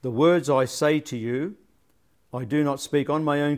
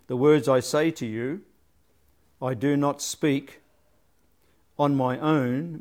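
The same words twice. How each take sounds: First: Said in the usual way. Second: 停顿后慢慢说"on my own"; pause before on my own. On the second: Shown as a demonstration. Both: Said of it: "could very easily be".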